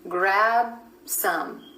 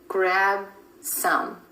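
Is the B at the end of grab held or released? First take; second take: held; held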